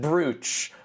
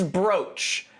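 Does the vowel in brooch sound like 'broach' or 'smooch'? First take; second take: smooch; broach. First: The vowel is the long 'oo' of 'smooch'. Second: The vowel is the long 'o' of 'coach'. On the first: The speaker calls it wrong. "So I said brooch. But no, that's wrong" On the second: The speaker calls it right. "usually it's spelled brooch but pronounced broach"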